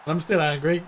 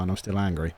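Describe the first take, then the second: First: A grin in the voice, not angry at all; mock anger through a smile; said smiling. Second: Said in the usual way. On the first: Real, not acted. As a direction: claim anger while smiling. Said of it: "Yeah, I'm smiling".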